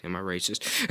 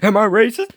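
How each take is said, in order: First: Said in the usual way. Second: High, loud mock-panicked squeal; mock panic, much higher and louder; squealed alarm. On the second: Shown as a demonstration. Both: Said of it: "repeated higher and louder".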